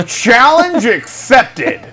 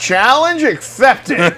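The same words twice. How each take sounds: First: Slow, high, laughing through it. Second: Dramatic. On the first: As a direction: say it again, cracking up. Repeats the line laughing. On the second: Dramatic reply to the warning. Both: Pretend.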